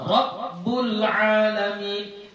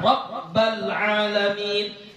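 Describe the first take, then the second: First: The vowel after rabb is u. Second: The vowel after rabb is a. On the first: "tapi kamu baca dhammah" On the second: "atau kamu baca fathah"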